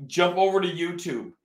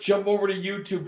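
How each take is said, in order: First: Said in the usual way. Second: "jump over to YouTube" rattled off fast; real quick. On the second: Real, not acted. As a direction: zip through it quickly. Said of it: "Just real quick".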